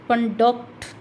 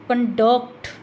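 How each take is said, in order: First: The stress is on the second syllable. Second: The same.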